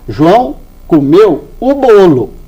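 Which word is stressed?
bolo. The stress falls on bolo.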